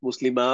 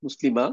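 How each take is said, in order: First: মুসলিমা with the final a held one alif length; long alif ending. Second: মুসলিমা with a short, clipped final a, no stretch; short a ending. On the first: Teacher models মুসলিমা for students with a long final a. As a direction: stretch the last a of মুসলিমা, মুসলিমাআ. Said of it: "এখানে হচ্ছে এক আলিফ টান". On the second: Teacher models মুসলিমা for students with short final a. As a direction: keep the last a of মুসলিমা short, no alif length. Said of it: "কোনো টান নাই". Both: Shown as a demonstration.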